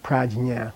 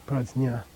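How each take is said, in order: First: "prajna" said with a hard j as in English "judge"; "prajna" with the English dj sound; wrong prajna. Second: "Prajna" said with a soft z-like sound, no hard j; "Prajna" pronounced prazna; correct prajna. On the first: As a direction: give "prajna" the j of "judge", as the mistaken version. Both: Shown as a demonstration. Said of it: "Not prajna".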